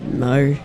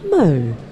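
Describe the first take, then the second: First: It sounds disappointed. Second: It sounds gentle and supportive.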